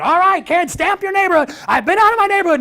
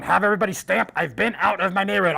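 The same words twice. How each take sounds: First: High, loud excited announcement; rallying shout. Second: Imitated convoy radio announcement; radio call. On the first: Retold or imitated. Leader telling kids to stamp their passports, rallying shout. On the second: Lead car radioing the convoy of kids, radio call. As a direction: call it over the radio to the cars. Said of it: "radio and breaker one".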